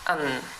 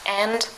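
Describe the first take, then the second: First: The word is said with a schwa and no d. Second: The word is said fully with its final d. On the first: "the vowel sound a is reduced to the schwa sound; The d is dropped" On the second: "And becomes un"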